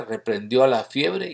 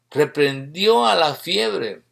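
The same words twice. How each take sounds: First: Said in the usual way. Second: "Reprendió a la fiebre" slowed right down, stretched out for weight; emphatic repetition. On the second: Shown as a demonstration. Preacher repeats the verse to the congregation, slow emphatic repetition. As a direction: spell out "Reprendió a la fiebre" slowly and pointedly.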